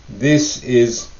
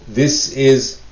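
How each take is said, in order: The two takes are said the same way.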